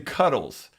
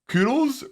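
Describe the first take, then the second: First: The word is said with an American accent. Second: The word is said with a British accent. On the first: "as an American" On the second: "with the British accent, it sounds like koodles"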